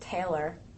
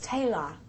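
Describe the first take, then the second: First: It is said in a Pennsylvania accent. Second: It is said in an Australian accent. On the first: "I grew up in Pennsylvania where they pronounce it Taylor" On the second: "And then in Australia, it's Taylor"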